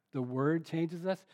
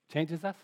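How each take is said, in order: First: "The word changes us" said slowly, each word weighed, rising on "us"; slow emphatic phrase. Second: Said in the usual way. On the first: Shown as a demonstration. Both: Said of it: "I'll emphasize the word listen there maybe".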